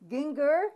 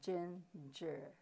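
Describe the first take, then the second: First: The word starts with a hard G sound. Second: The word starts with a J sound. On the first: The speaker calls it wrong. "instead of ginger" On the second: The speaker calls it right. "has the sound of J"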